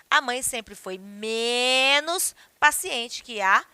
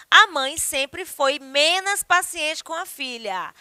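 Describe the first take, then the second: First: Careful correct reading, "menos" not "menas"; slow model sentence with proper "menos". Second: Deliberately wrong "menas" in the example; common error menos. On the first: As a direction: say "menos" with a clear o, slowly. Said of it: "Então, o correto é". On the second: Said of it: "a frase está com problema gramatical". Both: Shown as a demonstration.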